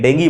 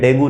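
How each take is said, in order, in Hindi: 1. शब्द 'ee' ध्वनि पर खत्म होता है। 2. शब्द 'oo' ध्वनि पर खत्म होता है। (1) "अंग्रेजों के लिए ... डेंगी बोल देते हैं" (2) "डेंगू नहीं"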